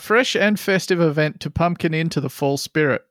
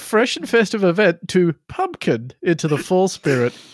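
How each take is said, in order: First: The words are said in a flat, neutral tone. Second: Key words are said with strong, marked emphasis. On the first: "I'll say it with a completely neutral tone" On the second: "I'm emphasizing that the way they would emphasize it"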